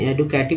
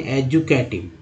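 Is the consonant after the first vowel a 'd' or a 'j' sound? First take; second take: d; j. First: The second consonant is a plain 'd' sound. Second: The second consonant is a 'j' sound. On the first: The speaker calls it wrong. "एडुकेटिव नहीं" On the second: The speaker calls it right. "यहाँ डी को यहाँ ज बोला जाता है"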